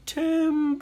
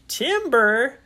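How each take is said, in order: First: High, long-drawn warning holler; lumberjack call. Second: Loud, high questioning repeat; puzzled echo. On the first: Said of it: "it sounded like". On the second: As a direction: repeat TIMBER as a startled question. Puzzled echo of the shouted warning. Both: Acted.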